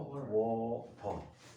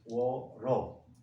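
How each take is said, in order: First: The t is tense and unaspirated. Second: The t becomes a quick r-like flap. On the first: "조금 얘를 경음화시켜서" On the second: "좀 더 심하게 하면"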